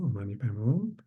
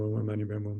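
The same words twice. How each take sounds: First: It is recited slowly, each syllable clear. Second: It is recited quickly, syllables run together. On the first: The speaker calls it right. "each syllable is to be expressed very precise and very clear" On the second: The speaker calls it wrong. "many people recite"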